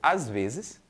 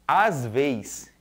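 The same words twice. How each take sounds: First: It has a standard pronunciation. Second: It has a rural northeastern pronunciation. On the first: "que seriam às vezes" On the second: "pronunciados com um modo característico, identificando o falante do meio rural"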